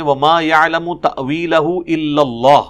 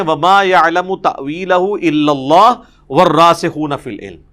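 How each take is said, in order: First: Full pause after إِلَّا اللَّهُ; stop after اللَّهُ. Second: One joined phrase, no break at اللَّهُ; no stop after اللَّهُ. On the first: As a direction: end the phrase on اللَّهُ and stop. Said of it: "کے بعد وقف ہے". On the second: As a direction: run اللَّهُ straight into وَالرَّاسِخُونَ. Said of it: "بیچ میں سے وقف نکال دیتے ہیں". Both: Shown as a demonstration.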